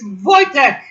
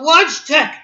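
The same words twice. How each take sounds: First: Wojtek shouted as "VOY-tek"; correct Polish pronunciation. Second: Wojtek shouted as "WAHJ-tek"; wrong pronunciation. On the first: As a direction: hammer Wojtek with a V, j like y. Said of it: "it's Wojtek". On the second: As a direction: throw back Wojtek with English W and hard j. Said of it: "My name is not Wojtek". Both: Retold or imitated.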